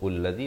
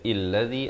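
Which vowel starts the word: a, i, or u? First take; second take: u; i. First: The word begins with a 'u' vowel. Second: The word begins with an 'i' vowel. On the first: "atau ullazi" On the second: "Jangan baca illazi"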